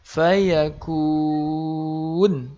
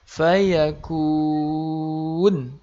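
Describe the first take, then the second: First: The word stops on the consonant, vowel lengthened. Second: The word stops on the consonant, vowel lengthened.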